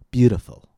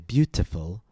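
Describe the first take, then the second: First: The middle T is a quick D-like tap. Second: The middle T is a clear, crisp T sound. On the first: The speaker calls it right. "we said beautiful" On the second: The speaker calls it wrong. "We didn't say beautiful"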